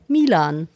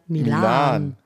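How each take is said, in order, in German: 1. Die Betonung liegt auf der ersten Silbe. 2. Die Betonung liegt auf der zweiten Silbe. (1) "Der eigentliche Name ist ja Milan" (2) "Aber das ist ja jetzt der Milan"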